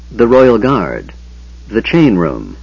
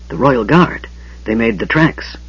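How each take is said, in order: First: Chapter title. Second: Hurried hushed alarm; frantic whisper. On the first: A narrator's reading. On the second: Acted. Raistlin warning Tanis of the dead guards, frantic whisper. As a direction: gasp the warning in a panic. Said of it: "Raistlin whispered frantically".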